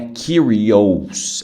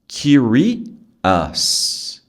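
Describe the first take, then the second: First: The ending is pronounced like "os". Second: The ending is pronounced like "us". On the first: The speaker calls it wrong. "não é curious" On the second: The speaker calls it right. "o S tem som de us"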